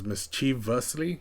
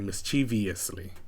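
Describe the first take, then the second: First: No extra ee sound comes before the ending. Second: An extra ee sound comes before the ending. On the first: The speaker calls it right. "the correct pr- pronunciation is mischievously" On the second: The speaker calls it wrong. "mistakenly pronounce it with the I in this area over here"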